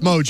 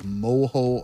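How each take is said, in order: First: The middle consonant is a j sound. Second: The middle consonant is an h sound. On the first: The speaker calls it right. "No, it's mojo" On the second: The speaker calls it wrong. "I didn't pronounce it as mojo. I said like moho"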